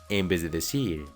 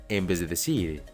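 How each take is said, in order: The two takes are said the same way.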